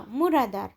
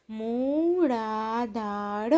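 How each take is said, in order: First: Said in the usual way. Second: મૂળાધાર very slow, every syllable held long; drawn-out મૂળાધાર, syllables separated. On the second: Shown as a demonstration. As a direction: sound out મૂળાધાર slowly for beginner readers. Syllable-by-syllable reading, then whole word.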